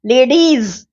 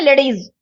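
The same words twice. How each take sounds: First: लेडीज with its final S sound fully held; clearly articulated. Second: लेडीज rushed, its final S chewed away; swallowed ending. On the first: Teacher giving the careful example, लेडीज with a clear ending. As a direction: sound out every part of लेडीज. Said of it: "एस जो है वो चबा जाएंगे". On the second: Teacher showing students' hasty speech, लेडीज with swallowed S. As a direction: hurry लेडीज and drop off the ending. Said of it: "जल्दी जल्दी में". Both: Shown as a demonstration.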